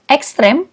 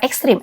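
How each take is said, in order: First: The last vowel is pronounced as 'e'. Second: The last vowel is pronounced as 'i'. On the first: The speaker calls it right. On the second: The speaker calls it wrong.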